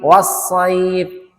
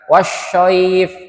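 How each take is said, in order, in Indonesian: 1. Konsonan setelah 'wa' adalah s biasa. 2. Konsonan setelah 'wa' adalah sh. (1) "wasaib sa ya" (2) "Bukan wasyaif. Nah, ini jadi dua-duanya sya"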